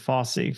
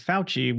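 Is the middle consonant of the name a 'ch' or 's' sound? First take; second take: s; ch. First: The name has an 's' sound in the middle. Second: The name has a 'ch' sound in the middle. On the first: This is how the family says the name. "We pronounced it Fossey" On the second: This is how outsiders say the name. "we didn't pronounce it Fauci"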